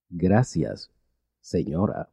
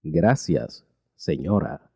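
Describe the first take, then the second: No difference in how they are said.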